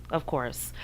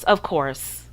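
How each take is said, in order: First: "Of course" repeated much softer, as an afterthought; soft echo. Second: Said in the usual way. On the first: Shown as a demonstration. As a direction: let "Of course" fade almost to nothing.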